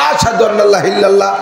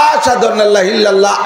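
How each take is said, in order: Both takes have the same delivery.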